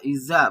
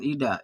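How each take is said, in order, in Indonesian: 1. Huruf tengah adalah bunyi z yang lembut. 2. Huruf tengah adalah bunyi d yang keras. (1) "iza bukan ida" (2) "bukan ida"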